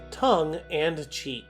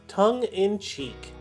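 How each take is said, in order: First: The middle word sounds like 'and'. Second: The middle word sounds like 'in'. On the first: The speaker calls it wrong. "The common mispronunciation is tongue and cheek" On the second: The speaker calls it right. "Our final phrase"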